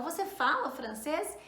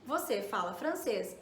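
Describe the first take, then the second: First: "você fala francês" rising at the end as a question; question intonation. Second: "você fala francês" stated low, falling at the end; statement intonation. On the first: Teacher turns the affirmation into a question, rising tune. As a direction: turn it into a question by lifting "francês". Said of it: "eu coloco aí a entonação". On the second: Teacher demonstrates the affirmative for learners, low falling statement tune. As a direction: let "francês" drop to close the statement. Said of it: "Eu estou fazendo uma afirmação". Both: Shown as a demonstration.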